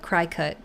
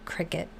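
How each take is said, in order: First: The first syllable sounds like cry. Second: The first syllable sounds like crick. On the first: The speaker calls it wrong. "when I think that it's a cry cut" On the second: The speaker calls it right. "instead of a cricket"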